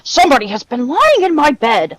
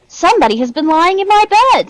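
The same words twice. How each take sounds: First: The voice is big, deep and gruff. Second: The voice is medium in size and pitch. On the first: A large father figure is speaking. "said Father Bear in his great, gruff voice" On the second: A middle-sized mother figure is speaking. "said Mother Bear in her middle-sized voice"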